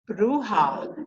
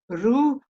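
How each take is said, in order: First: The final syllable is fully voiced. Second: The final syllable is only breathed out. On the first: The speaker calls it wrong. "the way I pronounced it" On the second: The speaker calls it right. "They just breathe the H A. They don't voice it"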